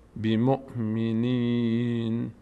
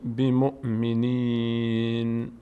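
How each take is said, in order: Both takes have the same delivery.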